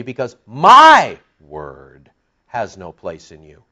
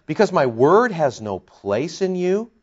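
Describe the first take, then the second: First: Booming "my", the rest falling away; stress on MY. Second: Said in the usual way. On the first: Shown as a demonstration. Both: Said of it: "let's put the emphasis on the my".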